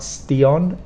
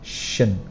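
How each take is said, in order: First: The ending is said with a clear T sound. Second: The ending is said without a clear T sound. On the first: The speaker calls it wrong. "It's not stion" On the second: The speaker calls it right. "it's shun"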